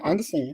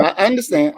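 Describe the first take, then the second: First: Much softer, mock submissive; playful hushed yes-sir acknowledgement; mock meek murmur. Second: Said in the usual way. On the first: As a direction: fade it out like a scolded kid. Mock obedient reply after joke.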